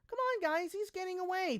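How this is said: It is said in a mocking, high-pitched voice.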